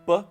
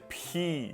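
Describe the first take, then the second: First: The P is said without a puff of air. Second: The P is said with a puff of air. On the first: "the Spanish P" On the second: "kind of like adding an H"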